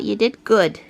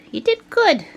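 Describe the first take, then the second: First: Lower, murmured praise for the cat. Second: Pet talk. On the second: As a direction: bounce it up brightly. Praising the cat higher. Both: Real, not acted.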